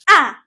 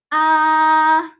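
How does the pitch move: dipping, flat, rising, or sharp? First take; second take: sharp; flat. First: The pitch sounds sharp, as if angry. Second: The pitch stays flat and high. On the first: "para ka lang nagagalit" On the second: "The first tone is pronounced as flat and high"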